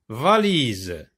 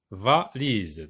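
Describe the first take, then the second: First: Said in the usual way. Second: Valise broken as VA, pause, LISE; lower, two-beat Valise; split into syllables. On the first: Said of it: "la syllabe va". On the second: Shown as a demonstration. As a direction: separate VA from the rest of Valise. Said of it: "va se trouve".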